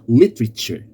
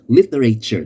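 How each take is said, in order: First: The word is said with three syllables. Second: The word is said with four syllables. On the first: The speaker calls it right. "a three-syllable word" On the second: The speaker calls it wrong. "It's not literature. That is wrong"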